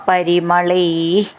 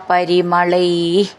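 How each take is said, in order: Both takes have the same delivery.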